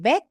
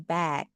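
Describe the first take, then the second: First: The vowel is said with a narrower mouth. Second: The vowel is said with a wide-open mouth. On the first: The speaker calls it wrong. "Bukan back ya" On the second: The speaker calls it right. "tapi back"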